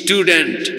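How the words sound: It is said in a Bangladeshi English accent. The speaker calls it wrong. "আপনারা বলেন"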